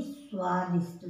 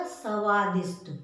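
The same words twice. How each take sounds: First: स्वादिष्ट with a half स blended into व, swaa-dishṭ; correct half sa. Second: स्वादिष्ट as sa-vaa-dishṭ with a full स; wrong full sa. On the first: Teacher to children: the correct स्वादिष्ट. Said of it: "स्वादिष्ट नहीं". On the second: Teacher to children: the wrong स्वादिष्ट. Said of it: "अगर हम पूरा लगा देंगे". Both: Shown as a demonstration.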